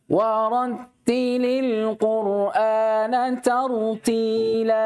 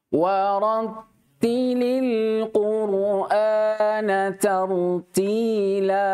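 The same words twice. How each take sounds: First: The verse is recited at a moderate pace. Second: The verse is recited slowly and carefully.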